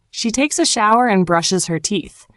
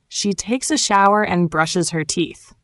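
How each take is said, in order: Both takes have the same delivery.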